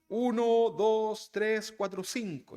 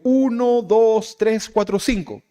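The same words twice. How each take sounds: First: The voice is farther away and softer. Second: The voice is close and loud. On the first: The speaker has moved away. "Pero luego me alejo. ... Ya lo escucho un poquito más despacio" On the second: The speaker is near. "si usted está cerquita, lo escucha fuerte"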